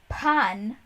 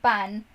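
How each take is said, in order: First: It is said with an American English accent. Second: It is said with a native Spanish pronunciation. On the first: The speaker calls it wrong. "He says pan" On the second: The speaker calls it right. "instead of pan"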